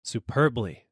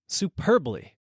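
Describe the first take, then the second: First: Said in the usual way. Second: High, elated exclamation; excited. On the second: A narrator's reading. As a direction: cry it out in delight. Rising on bucket.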